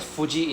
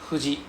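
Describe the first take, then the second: First: It starts with a firm F sound. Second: It starts with a light breathy blown sound. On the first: The speaker calls it wrong. "we don't pronounce as Fuji in Japanese" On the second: The speaker calls it right. "we pronounce as Fuji a H sound fu"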